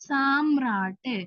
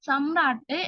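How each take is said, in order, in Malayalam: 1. ആദ്യ സ്വരം നീട്ടി പറയുന്നു. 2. ആദ്യ സ്വരം ചെറുതായി പറയുന്നു. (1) "സാക്കി നീട്ടാനുണ്ട്... ഇത് തെറ്റാണ് കേട്ടോ" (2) "സാക്കി നീട്ടാനില്ല"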